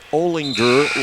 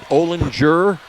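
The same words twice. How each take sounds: First: The g is said hard, as in grouch. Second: The g is said soft, like j. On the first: The speaker calls it right. "no, it's Olinger, like in grouch" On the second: The speaker calls it wrong. "Is it Olinger?"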